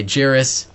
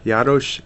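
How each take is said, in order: First: Jaris said the English way, like Harris with a J; plain American Jaris; English pronunciation. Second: Jaroš repeated slowly, r tapped, sh at the end; Jaroš with a rising check, Czech sh ending; Czech pronunciation. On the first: Host giving his surname as said in English, American pronunciation. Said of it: "in English we say Jaris". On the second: Confirming the Czech surname for the host, Czech pronunciation. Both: Shown as a demonstration.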